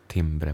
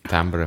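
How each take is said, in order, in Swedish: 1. Ordet uttalas på svenska. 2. Ordet uttalas på engelska. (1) "timbre på svenska" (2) "timbre på engelska"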